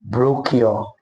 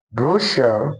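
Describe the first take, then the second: First: Brochure said bro-kyo, with a k sound; the wrong way, brochure as bro-kyo. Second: Brochure said broo-shuh, stress on the first syllable; correct brochure. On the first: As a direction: brochure with a hard k, mistaken. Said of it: "and not". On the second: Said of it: "this word is actually pronounced as brochure". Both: Shown as a demonstration.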